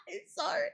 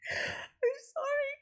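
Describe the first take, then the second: First: Giggled apology, much higher; real giggling sorry; laughing. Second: Squeaky, slow apology laughed to tears; real tearful laughing sorry; crying laughter. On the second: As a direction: wheeze it out through helpless laughter. Laughing until near tears. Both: Real, not acted.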